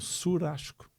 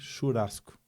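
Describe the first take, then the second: First: It is said with the Santa Catarina regional pronunciation. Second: It is said with the Serra regional pronunciation. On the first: "e em Santa Catarina ... eles lá falam surasco" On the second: "Na Serra, eles fazem churrasco"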